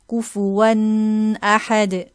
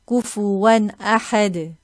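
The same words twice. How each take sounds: First: The nasal sound is drawn out long. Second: The nasal sound is kept short. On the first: The speaker calls it wrong. "not to extend and say" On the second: The speaker calls it right. "No prolonging"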